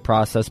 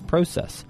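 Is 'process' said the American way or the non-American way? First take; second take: American; non-American. First: It is said with an American pronunciation. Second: It is said with a non-American pronunciation. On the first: The speaker calls it wrong. "I think a lot of Americans say process, but I think we're wrong" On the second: The speaker calls it right. "I think it's process"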